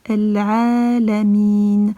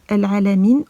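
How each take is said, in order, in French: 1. La voyelle est étirée sur deux temps. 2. La voyelle n'est tenue que brièvement. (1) "on va dire" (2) "au lieu de la dire"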